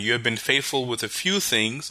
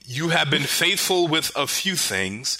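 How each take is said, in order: First: It is read plainly without much energy. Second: It is read with energetic preacher-like gusto.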